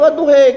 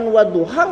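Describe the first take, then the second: First: The final vowel is shifted toward an 'e' sound. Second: The final vowel is an open 'a' sound. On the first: The speaker calls it wrong. "nggak boleh wadduhe" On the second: The speaker calls it right. "kalau kita bisa mengucapkan wadduha"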